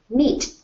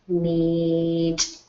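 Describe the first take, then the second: First: The word is said quickly as one unit. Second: The word is stretched out slowly into its sounds. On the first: "Now I'm going to say it fast" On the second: "I'll keep saying me as I slide it over to blend with t"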